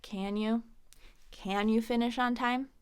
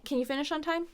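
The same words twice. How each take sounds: First: Condescending. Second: Light higher question, CAN quick and reduced; neutral, unemphasized. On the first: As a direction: question their ability with a weighted CAN. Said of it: "might be a little bit condescending". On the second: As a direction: skim past CAN without judgment. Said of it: "It's more neutral". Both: Shown as a demonstration.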